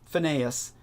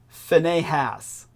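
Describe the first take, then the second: First: The middle h sound is left out. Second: The middle h sound is clearly pronounced.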